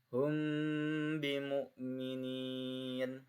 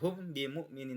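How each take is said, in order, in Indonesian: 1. M ditahan dengan dengung sengau. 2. M dilepas dengan cepat tanpa dengung sengau. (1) "mimnya ditahan samar ya" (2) "Tidak hum bimu'minin, tidak gitu"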